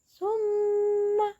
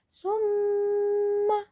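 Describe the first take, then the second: Both takes have the same delivery.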